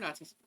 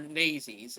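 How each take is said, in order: First: The word is said in a plain, ordinary pronunciation. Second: The word is said in an exaggerated, imitated pronunciation.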